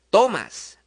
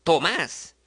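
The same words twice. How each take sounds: First: "tomas" stressed on TO; stress on first syllable. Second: "Tomás" stressed on the final más; light To, strong más in "Tomás"; stress on last syllable. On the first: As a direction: say "tomas" with a strong to and a weak mas. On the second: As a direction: say "Tomás" with the beat landing on más. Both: Shown as a demonstration.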